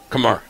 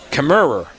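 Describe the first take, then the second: First: The syllables are slurred into two. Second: All three syllables are said clearly.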